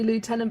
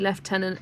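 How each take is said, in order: First: It is said with no F sound. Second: It is said with an F sound. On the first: It is said the way the spelling suggests. "it looks like it should be" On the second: It is said the way it is actually pronounced. "it's actually"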